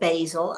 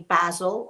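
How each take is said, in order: First: The word is said the American way. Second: The word is said in a non-American way.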